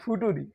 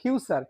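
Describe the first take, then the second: First: It is pronounced like 'foo-too-ree'. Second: It is pronounced like 'fyoo-cher'. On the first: The speaker calls it wrong. "অনেকে বলবো আবার ফুটুরি" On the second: The speaker calls it right. "তো বলা যাবে না, ফিউচার"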